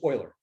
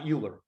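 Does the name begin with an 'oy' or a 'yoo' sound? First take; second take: oy; yoo. First: The name begins with an 'oy' sound. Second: The name begins with a 'yoo' sound. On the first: The speaker calls it right. "this is Euler" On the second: The speaker calls it wrong. "not Euler"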